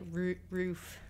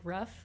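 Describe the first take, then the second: First: The vowel is long, as in 'food'. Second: The vowel is short, as in 'rough'. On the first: The speaker calls it right. "but it's like roof" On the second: The speaker calls it wrong. "I say like rough"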